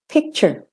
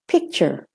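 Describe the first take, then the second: First: The final syllable is short, flat and reduced. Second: The same.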